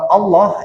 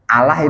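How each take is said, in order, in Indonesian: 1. Bunyi l-nya tebal dan gelap. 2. Bunyi l-nya tipis dan ringan. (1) "bacaan tafhim" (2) "tarkik disebutnya"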